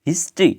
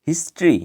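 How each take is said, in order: No difference in how they are said.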